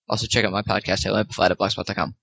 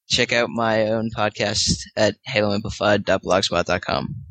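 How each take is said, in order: First: It is said very fast. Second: It is said at normal speed.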